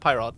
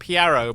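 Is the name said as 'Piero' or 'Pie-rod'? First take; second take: Pie-rod; Piero. First: The name begins like the word 'pie'. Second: The name is said like 'Piero'. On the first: This is the speaker's own way of saying it. "I just call him Pyrod because like he he's a big guy" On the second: This is how another reviewer says it. "he calls him Piero"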